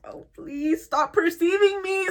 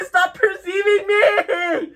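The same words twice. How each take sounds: First: Higher, slow, strained plea; pleading mock whine. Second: Higher, louder, very slow cry of "perceiving"; mock desperate shout. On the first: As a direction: beg them to look away. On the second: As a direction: wail "stop perceiving me" at full volume. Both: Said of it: "just be like".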